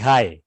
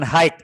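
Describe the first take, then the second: First: The word sounds exactly like 'hi'. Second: The word does not sound like 'hi'. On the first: The speaker calls it right. "tapi high" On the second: The speaker calls it wrong. "Bukan high"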